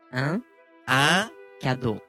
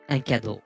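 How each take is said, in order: First: The phrase is said slowly. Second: The phrase is said at a faster tempo. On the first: "ゆっくり、お願いします。" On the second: "テンポ上げてお願いします。"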